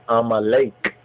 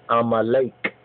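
Both takes have the same delivery.

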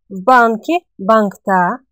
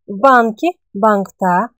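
Both takes have the same delivery.

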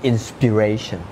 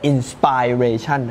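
First: The main stress is on the third syllable. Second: The main stress is not on the third syllable. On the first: The speaker calls it right. "นะครับมัน" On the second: The speaker calls it wrong. "คนไทยพูดคำนี้ผิดบ่อยมากมันไม่ใช่"

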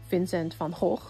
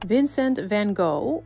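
First: The name is said with Dutch pronunciation. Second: The name is said with English pronunciation.

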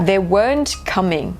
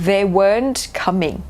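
Both takes have the same delivery.

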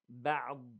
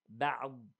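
The two takes are said the same way.

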